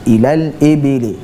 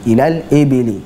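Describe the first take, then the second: The two takes are said the same way.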